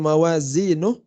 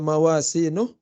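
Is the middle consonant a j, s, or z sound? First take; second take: z; s. First: The middle consonant is a z sound. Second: The middle consonant is an s sound. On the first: The speaker calls it right. "harusnya mawazinuh" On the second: The speaker calls it wrong. "kalau tidak dibaca mawasinuh"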